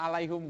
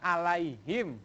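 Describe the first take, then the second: First: The final syllable has the vowel u. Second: The final syllable has the vowel i. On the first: The speaker calls it wrong. "alaihum gambreng itu salah" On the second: The speaker calls it right. "Harusnya alaihim gambreng"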